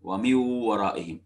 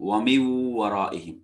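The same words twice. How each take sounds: Both takes have the same delivery.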